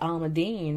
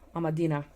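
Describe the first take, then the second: First: It is said the American way, ending in 'een'. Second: It is read the Dutch way, ending in 'eena'. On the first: "I feel in American with the bean, you gotta say it almondine" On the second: "when I read it with my Dutch knowledge, I want to say almondina"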